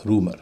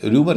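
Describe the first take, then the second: First: "रूमर" with a pure oo, ROO-mer; no y-glide after the r in "रूमर"; "रूमर" said as "roomar"; correct pronunciation. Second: "रूमर" said with a y-glide, as RYOO-mer; "रूमर" mispronounced as "ryumar"; common mispronunciation. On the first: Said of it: "इसका उच्चारण होता है रूमर". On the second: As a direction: slip a y after the r in "रूमर". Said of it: "कई लोग इसे रूमर कहते हैं". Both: Shown as a demonstration.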